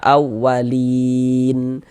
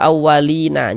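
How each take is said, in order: First: The word ends on a silenced final consonant. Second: The word ends with an added vowel sound. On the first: The speaker calls it right. "kita baca awalin" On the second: The speaker calls it wrong. "Jangan dibaca awalina, jangan"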